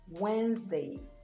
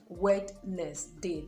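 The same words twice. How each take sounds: First: The D is silent and syllables are merged. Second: Every letter is pronounced, including the D. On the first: The speaker calls it right. "the D is absolutely silent" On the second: The speaker calls it wrong. "They like to pronounce every syllable of the word"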